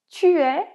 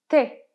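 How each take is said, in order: First: The vowel of 'tu' is fully pronounced. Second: The vowel of 'tu' is dropped.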